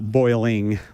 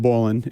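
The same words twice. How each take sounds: First: It is said in full, with all syllables. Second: It is said shortened, with fewer syllables. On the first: The speaker calls it wrong. "that's too many syllables" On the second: The speaker calls it right. "Notice I said boiling"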